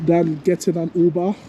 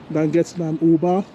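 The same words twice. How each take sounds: The two takes are said the same way.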